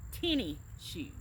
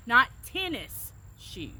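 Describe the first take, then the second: First: "Tenny" with the final s dropped; relaxed Southern "Tenny shoes". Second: "tennis" said slowly and fully, both syllables crisp; slow, careful "tennis shoes". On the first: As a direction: say "Tenny shoes" the way you grew up saying it. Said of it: "That's what we always said growing up". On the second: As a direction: spell out "tennis shoes" the proper way. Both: Shown as a demonstration.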